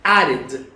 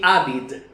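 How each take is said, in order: The two takes are said the same way.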